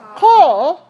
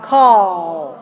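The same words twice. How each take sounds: First: The L comes early, cutting the vowel short. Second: The vowel is held fully before the L. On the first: The speaker calls it wrong. "So don't do this. Don't put your tongue up too soon" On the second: The speaker calls it right. "Make sure you get the aw first, and then the tongue should come up"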